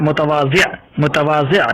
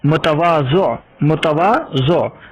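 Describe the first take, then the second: First: मुतवाज़िअ ending in a short i with a slight rise; correct pronunciation. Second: मुतवाज़ो ending in o, drawn out slowly; wrong pronunciation. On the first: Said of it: "सही लफ्ज़ क्या है". (सही उच्चारण मुतवाज़िअ) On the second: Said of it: "गलत ... लफ्ज़ है मुतवाज़ो". (ग़लत उच्चारण मुतवाज़ो) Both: Shown as a demonstration.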